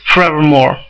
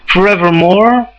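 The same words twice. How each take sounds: First: The word is squeezed into three syllables. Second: The word is said with four full syllables. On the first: "the contraction" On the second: "forevermore has four"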